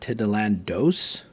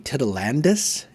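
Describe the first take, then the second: First: The word ends with a 'dos' sound. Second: The word ends with a 'dus' sound. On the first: The speaker calls it wrong. "instead of Titilandos" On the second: The speaker calls it right. "it should be Titilandus"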